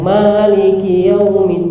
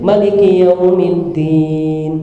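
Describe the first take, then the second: First: The first vowel of Maliki is held long. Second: The first vowel of Maliki is kept short. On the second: "Pendek maknanya"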